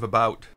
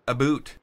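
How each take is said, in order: First: It is said in a standard, non-Canadian accent. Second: It is said in a stereotyped Canadian accent.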